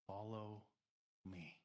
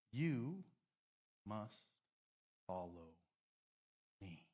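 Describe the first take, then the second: First: Said in the usual way. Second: "You must follow me" said word by word with long pauses, falling to low on "follow"; slow emphatic command. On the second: Acted. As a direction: spell out "You" "must" "follow" "me" as separate heavy beats. Quoting Jesus' command, drawn out.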